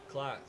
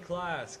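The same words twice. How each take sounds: First: It is said lower again in pitch. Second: It is said at a high pitch. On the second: "It's high pitch"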